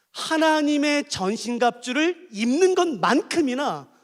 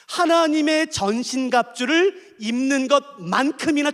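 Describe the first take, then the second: First: 입는 stretched out slowly; slow emphasis. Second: 하나님의 drawn out slowly; slow emphasis. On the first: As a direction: weigh each word of 하나님의 전신갑주를 입는 것만큼이나. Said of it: "잘 들으세요, 이제부터는요". (천천히 힘주어) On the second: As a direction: repeat it deliberately. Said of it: "잘 들어주세요". (다시 천천히 강조) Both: Shown as a demonstration.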